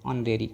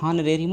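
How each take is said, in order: First: The word begins with a vowel, h silent. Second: The word begins with an audible h sound. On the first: The speaker calls it right. "क्योंकि एच यहाँ पर silent है" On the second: The speaker calls it wrong. "हॉनरेरी मत बोलिएगा, अगर हॉनरेरी आप पढ़ें तो गलत है"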